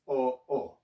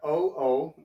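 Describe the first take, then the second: First: The vowel is a pure Tagalog o. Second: The vowel sounds like English 'oh'. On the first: The speaker calls it right. "It's o o" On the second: The speaker calls it wrong. "It's not o o"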